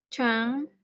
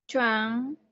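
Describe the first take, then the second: No difference in how they are said.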